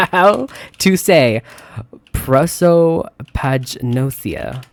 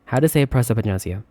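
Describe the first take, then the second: First: Slow, drawn-out syllables on prosopagnosia; sounding it out. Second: Said in the usual way. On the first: Real, not acted. Sounding out a hard word slowly.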